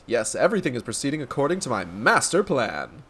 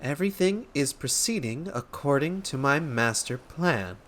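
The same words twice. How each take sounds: First: Lightly pompous, knowing declaration; self-assured inspector. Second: Softer, measured repeat while writing; taking dictation. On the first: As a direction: relish MASTER PLAN as a grand secret. Inspector declares his plan. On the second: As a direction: spell it out word by word, as if noting it down. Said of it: "I was supposed to be taking this down". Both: Acted.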